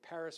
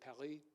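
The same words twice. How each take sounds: First: It is pronounced with an American English accent. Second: It is pronounced with a French accent. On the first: "In American English, we say Paris" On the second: "The French say Paris"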